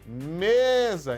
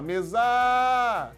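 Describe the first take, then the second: First: The stress falls on the first syllable. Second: The stress falls on the last syllable. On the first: The speaker calls it right. "a sílaba forte é o me" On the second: The speaker calls it wrong. "Você não fala mesa!"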